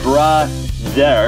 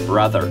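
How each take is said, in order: First: The word is said with heavily exaggerated articulation. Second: The word is said with light, subtle articulation. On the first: The speaker calls it wrong. "ไม่ต้องแบบ ... เยอะไปครับ" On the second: The speaker calls it right. "นิดเดียวครับ"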